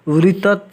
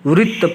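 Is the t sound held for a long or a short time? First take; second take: long; short. First: The t sound is given its full length. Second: The t sound is clipped to half length. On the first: The speaker calls it wrong. "हम यहाँ वृत्त नहीं कह के" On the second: The speaker calls it right. "वृत्त पढ़ेंगे, क्योंकि इसमें आधा तो का प्रयोग किया गया है"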